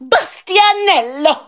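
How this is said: The name is said excitedly, after a gasp.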